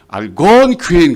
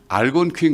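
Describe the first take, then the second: First: The first syllable is barely pronounced. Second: The first syllable is pronounced fully. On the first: The speaker calls it right. "알을 거의 발음하지 말아야 돼" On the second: The speaker calls it wrong. "그러면 안 되고"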